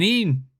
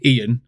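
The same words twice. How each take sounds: First: Ian merged into EEN; one-syllable Geordie Ian. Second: Ian said as EE-an; two-syllable Ian. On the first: Retold or imitated. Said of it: "but they're saying Ian". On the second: Shown as a demonstration. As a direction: pronounce Ian with two beats, EE-an. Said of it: "they think they're saying Ian".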